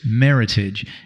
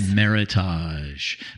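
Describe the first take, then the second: First: The word rhymes with heritage. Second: The word does not rhyme with heritage. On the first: This is how the word is actually said. The speaker calls it right. "it rhymes with heritage. So it's meritage" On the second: This is how the spelling tempts you to say it. The speaker calls it wrong. "if you look at it, you want to say"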